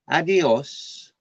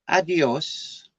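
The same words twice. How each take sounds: First: It is said with a Madrid accent. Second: It is said with a Madrid accent.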